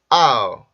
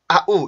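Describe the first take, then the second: First: The two vowel parts glide smoothly together. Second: The two vowel parts are cut apart choppily. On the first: The speaker calls it right. "아 발음에서 입술 옮겨서 우 발음으로 옮겨가면서" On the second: The speaker calls it wrong. "이렇게 뚝뚝 끊지 마시고"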